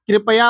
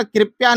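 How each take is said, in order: First: कृपया said as "kri-pa-ya", middle vowel sounded; correct pronunciation. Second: कृपया said as "kirpya", the middle vowel dropped; wrong pronunciation. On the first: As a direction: give कृपया three clear syllables, kri-pa-yaa. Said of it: "कृपया होता है". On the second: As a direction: run the end of कृपया together as "-pya". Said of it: "कृपया नहीं होता". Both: Shown as a demonstration.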